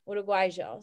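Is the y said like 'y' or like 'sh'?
sh. The y is said like sh, Uruguayan style.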